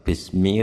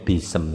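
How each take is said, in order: First: The s runs straight into the m. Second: A vowel is inserted between s and m. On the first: The speaker calls it right. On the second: The speaker calls it wrong.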